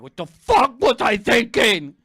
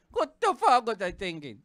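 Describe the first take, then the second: First: Loud, slow yell of regret; exasperated self-reproach. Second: Said in the usual way. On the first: Acted. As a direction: yell it at yourself, word by word. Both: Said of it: "you're thinking like".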